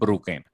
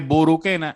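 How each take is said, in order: First: No vowel is heard between the b and r. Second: A vowel is heard between the b and r. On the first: This is how people in Corozal say it. "en Corozal dicen bruquena. Le quitamos una U" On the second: This is how some other people say it. "hay gente que le dice buruquena"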